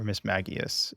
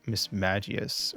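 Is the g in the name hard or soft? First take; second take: hard; soft. First: The g is said hard, like in go. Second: The g is said soft, like j. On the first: "hard G"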